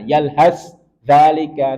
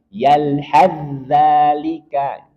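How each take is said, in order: First: The first consonant is pronounced separately before the next. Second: The first consonant is merged into the next one. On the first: The speaker calls it wrong. "Maka jangan sampai kita membaca sa-nya. tidak boleh" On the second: The speaker calls it right. "Langsung diidghamkan dan dimasukkan ke za"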